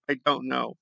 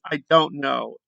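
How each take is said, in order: First: Lower, softer resigned repeat; trailing off. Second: Said in the usual way. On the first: Real, not acted. Vlogger giving up on Trumper logic, lower and softer. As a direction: let it fade out in defeat.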